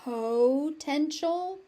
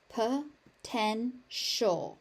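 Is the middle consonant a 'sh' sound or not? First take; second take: not sh; sh. First: The middle consonant is not pronounced as sh. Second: The middle consonant is pronounced as sh. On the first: "You may also hear potential" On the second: "That T I becomes a sh sound"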